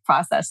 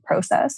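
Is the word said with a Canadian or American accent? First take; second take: American; Canadian. First: It is said the American way. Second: It is said the Canadian way.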